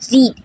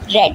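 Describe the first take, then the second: First: It is pronounced as the base form. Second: It is pronounced as the past participle. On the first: The action is in the present. "the base form of verb" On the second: The action is already completed. "The pronunciation of read will be read"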